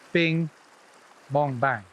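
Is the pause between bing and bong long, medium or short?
long. There is a long pause after bing. The mend lands right under the rod tip. "the mend right under the rod tip"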